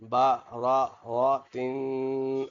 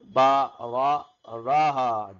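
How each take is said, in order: First: The word ends with a nasal tin sound. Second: The word ends with an h sound. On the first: The reading continues without stopping. "پہلے تو ایسے پڑھیں گے" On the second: The reader stops on this word. "ابھی وقفن کریں گے"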